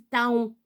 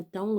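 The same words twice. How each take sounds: First: "taon" said as written, ta-on; spelling pronunciation. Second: Said in the usual way. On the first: Shown as a demonstration. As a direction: sound both vowels of "taon": ta-on. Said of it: "Ça s'écrit taon". (« taon » prononcé ta-on, comme il s'écrit) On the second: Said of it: "Ça s'appelle un taon".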